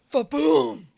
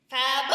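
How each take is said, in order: First: It is said in a lower register. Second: It is said in a higher register.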